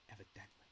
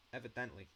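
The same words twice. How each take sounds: First: Evidently said again, much softer; a soft, relishing "Evidently"; quiet repeat. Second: Said in the usual way. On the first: Shown as a demonstration. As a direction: savor the word under your breath. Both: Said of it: "I really do like that word".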